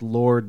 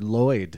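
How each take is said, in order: First: The vowel is pronounced as in 'or'. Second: The vowel is pronounced as in 'oy'. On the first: The speaker calls it right. "he pronounced Lord" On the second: The speaker calls it wrong. "he pronounced Lord Lloyd"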